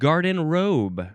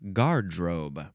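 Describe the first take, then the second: First: It is said with three syllables, like 'garden robe'. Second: It is said with two syllables, like 'gard-robe'. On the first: The speaker calls it wrong. "I think I said garden robe. It's not garden robe" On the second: The speaker calls it right. "supposed to be pronounced gardrobe"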